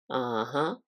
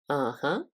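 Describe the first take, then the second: The two takes are said the same way.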